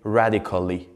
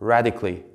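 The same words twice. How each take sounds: First: The middle 'al' syllable is pronounced. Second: The middle 'al' syllable is dropped. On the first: The speaker calls it wrong. "We didn't say radically" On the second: The speaker calls it right. "A-L were not pronounced"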